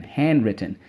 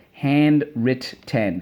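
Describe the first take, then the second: First: Said in the usual way. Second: "Handwritten" slowly split as hand, writ, ten; every syllable of "Handwritten" given full weight. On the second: Shown as a demonstration. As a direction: chant "Handwritten" in three separate beats. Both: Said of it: "so let's go".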